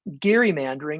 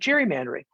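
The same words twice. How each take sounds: First: The word begins with a hard G sound. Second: The word begins with a soft G sound. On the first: The speaker knows the word's technical origin. "It's pronounced the hard G" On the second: This is the common everyday pronunciation. "I just go with soft G"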